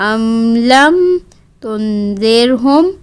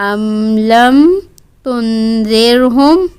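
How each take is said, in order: No difference in how they are said.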